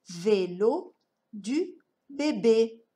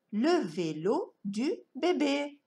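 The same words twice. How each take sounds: First: "vélo du bébé" slowly, word by word with pauses; slow sounded-out reading. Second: Said in the usual way. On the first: Shown as a demonstration. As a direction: read "vélo du bébé" like a beginning reader. Slow model reading of a sentence.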